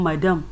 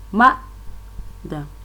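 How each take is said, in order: First: The stress is on the second syllable. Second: The stress is on the first syllable. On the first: The speaker calls it wrong. "in Nigerian English we are saying madam. No, it is not like that" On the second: The speaker calls it right. "The stress on the ma, that is the force is on the first level"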